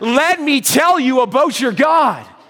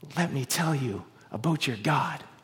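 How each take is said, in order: First: It is said loudly, with built-up energy. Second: It is said softly, like a faint voice.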